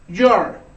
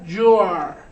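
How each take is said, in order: First: It is said quickly as one contracted syllable. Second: It is said slowly as two full words.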